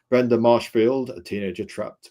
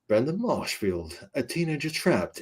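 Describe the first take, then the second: First: It is read in a plain, ordinary speaking voice. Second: It is read in a dramatic movie-trailer voice.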